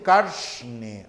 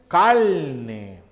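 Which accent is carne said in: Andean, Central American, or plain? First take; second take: Andean; Central American. First: It is said in an Andean accent, with a hissed r. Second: It is said in a Central American accent. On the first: "en países andinos dicen carne, arsh" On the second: "En Centroamérica dicen carne"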